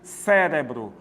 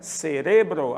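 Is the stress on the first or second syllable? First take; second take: first; second. First: The stress is on the first syllable. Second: The stress is on the second syllable. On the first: This is the Portuguese pronunciation. "quando nós vamos para o português, a tônica cai aqui" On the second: This is the Spanish pronunciation. "no espanhol ... a leitura é cerebro, a tônica é re"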